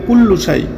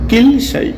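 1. শব্দটি 'kullu' দিয়ে শুরু হয়, পূর্ণ রূপে। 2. শব্দটি 'kil' দিয়ে শুরু হয়, সংক্ষিপ্ত রূপে। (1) "এখানে অনেকে বলে কুল্লুসাই, আসলে কুল্লুসাই না"

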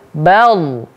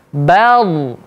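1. Konsonan pertama ringan, dengan vokal depan. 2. Konsonan pertama ringan, dengan vokal depan.

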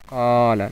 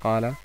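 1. Der erste Vokal wird lang gehalten. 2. Der erste Vokal wird kurz gehalten. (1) "wird es lang gesprochen. Qala, sagt man" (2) "nicht Qala"

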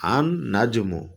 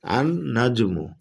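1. L ধ্বনিটি মিশে গিয়ে দ্বিত্ব N ধ্বনিতে পরিণত হয়। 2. L ধ্বনিটি মিশে গিয়ে দ্বিত্ব N ধ্বনিতে পরিণত হয়।

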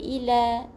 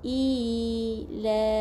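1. Vokal pertama dibaca pendek. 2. Vokal pertama ditahan dua harakat. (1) "Tak boleh" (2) "kita baca dengan dua harakat"

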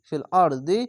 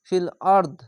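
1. শেষ শব্দটি হ্রস্ব i স্বরধ্বনি দিয়ে শেষ হয়। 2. শেষ শব্দটি স্বরহীন ব্যঞ্জনধ্বনি দিয়ে শেষ হয়।

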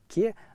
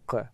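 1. Звук k мягкий, произносится ближе к передней части рта. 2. Звук k твёрдый, произносится ближе к задней части рта. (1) "один «к» как бы мягкий" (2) "другой «к» как бы твердый"

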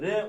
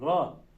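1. Harf, ünlü olmadan çıplak bir ünsüz olarak okunur. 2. Harften sonra a ünlüsü gelir. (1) "Bakın r olmaz. R demeyin sakın" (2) "Kalın harfler a'lı okutuyor"

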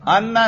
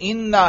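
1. शब्द 'a' स्वर से शुरू होता है। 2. शब्द 'i' स्वर से शुरू होता है। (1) "अन्ना नहीं भाई" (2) "ये इन्ना है भाई"

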